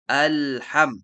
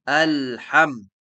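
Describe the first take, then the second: Both takes have the same delivery.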